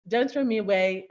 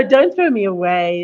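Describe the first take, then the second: First: Said in the usual way. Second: Loud imitation of children's cry; projected mock plea; mock call-out. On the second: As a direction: call it out much louder, imitating the game. Echoes the children's scream from clip.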